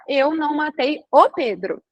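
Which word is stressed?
Pedro. The stress falls on the word Pedro. The speaker may have killed someone else, not him. "Isso quer dizer que eu posso ter matado o João"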